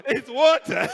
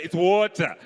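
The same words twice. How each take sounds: First: "water" higher and louder, r dropped, mocking. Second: "water" said wotah, r dropped; water without the r. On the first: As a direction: hit "water" high with no r. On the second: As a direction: say "water" with no final r. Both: Shown as a demonstration. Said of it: "is silent".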